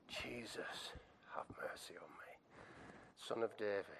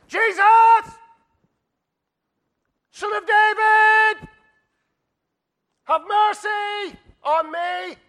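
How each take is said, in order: First: Soft, low, half-whispered appeal; hushed, spent prayer for mercy; quiet plea. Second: Huge, high, drawn-out cry for help; full-force acted plea, each phrase stretched; shouting out. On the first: Acted. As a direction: beg gently, almost under your breath. Plea repeated softly after shouting. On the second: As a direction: bellow it slowly over a crowd. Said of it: "He shouts out".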